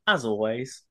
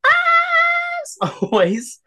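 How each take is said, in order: First: Said in the usual way. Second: Drawn-out squeaky falsetto, very slow; very high squeak. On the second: Real, not acted. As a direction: stretch it into a tiny high squeak. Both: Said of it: "attempt the as, as high pitched as possible".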